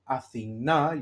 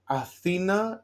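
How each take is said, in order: First: The stress is on the last syllable. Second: The stress is on the middle syllable. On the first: It names the goddess. "where I drop the accent to the last syllable" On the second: It names the capital city. "if the accent is in Ita, in E, Athena is Athens"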